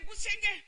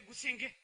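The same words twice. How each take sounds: First: Gusienge sung out high; leader's call. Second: Said in the usual way. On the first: Shown as a demonstration. Instructor giving the cue word to the class. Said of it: "If I say". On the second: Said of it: "you say".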